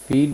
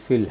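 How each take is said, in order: First: فیل with a long ee; long vowel in فیل. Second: فل with a short, lax i; short vowel in فل. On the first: Teacher warning learners of a mispronunciation, long ee in فیل. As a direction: stretch فیل as English "feel". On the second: Teacher showing learners the correct word, short vowel in فل. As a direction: say فل short, as English "fill". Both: Shown as a demonstration. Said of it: "اگر اسے آپ فیل بول دیں گے".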